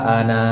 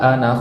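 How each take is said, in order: First: The final vowel of ana is long. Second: The final vowel of ana is short. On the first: The reading stops on this word. "Panjang di situ" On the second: The reading continues without stopping. "Pendek kan?"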